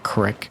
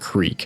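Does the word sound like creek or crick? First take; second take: crick; creek. First: It is said with a short i vowel. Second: It is said with a long ee vowel.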